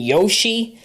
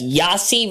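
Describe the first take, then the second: First: The name is said to sound like 'Yoshi'. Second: The name is said to sound like 'Yahtzee'. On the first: "rather than Yoshi" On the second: "prefer to pronounce it as Yahtzee"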